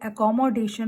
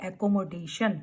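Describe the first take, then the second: First: "accommodation" as uh-kom-uh-DAY-shun; correct accommodation. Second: "accommodation" as ak-ko-mo-DAY-shun, syllables separated; mispronounced accommodation. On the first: Teacher modelling the word to use, correct pronunciation. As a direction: run "accommo" together in "accommodation". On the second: Teacher quoting what not to say, mispronounced word. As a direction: give "accommodation" full, separate vowels. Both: Shown as a demonstration. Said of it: "ना कि accommodation".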